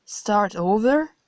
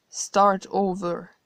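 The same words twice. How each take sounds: First: Rising, disbelieving echo; incredulous question. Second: Slow, matter-of-fact statement; calm confirmation. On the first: Narrator stunned by God's plan, disbelieving rise. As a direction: repeat it as if you can't believe it. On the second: God coolly confirming to the narrator, slow and matter-of-fact. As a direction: spell it out slowly and plainly. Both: Acted.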